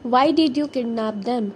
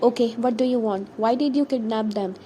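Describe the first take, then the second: First: Mildly angry, more forceful question; a touch of clenched-teeth anger; through clenched teeth. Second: Controlled question at an everyday pitch; understated, contained questioning; trying to stay calm. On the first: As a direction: push the question out with restrained anger. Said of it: "he said through clenched teeth". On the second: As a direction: keep the question even, holding yourself calm. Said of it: "he said, trying to stay calm". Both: A narrator's reading.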